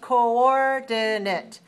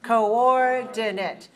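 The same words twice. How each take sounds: No difference in how they are said.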